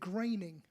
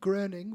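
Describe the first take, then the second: First: The name is said with an American pronunciation. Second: The name is said with a German pronunciation. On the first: "In America, they pronounce it Graining" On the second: "Groening would be in German"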